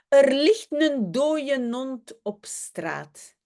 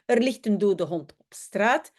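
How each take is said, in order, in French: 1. Le mot dode est réduit, avec un n de liaison. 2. Le mot dode est prononcé en entier. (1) "un son de liaison" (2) "au lieu de dire"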